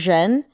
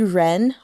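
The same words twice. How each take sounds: First: The first sound has a buzzing zh quality. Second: The first sound is a plain r without buzz. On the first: "with the zh, zh sound behind it. Not j sound, but zh" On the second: "it's not going to be Ren, although you can say that as well"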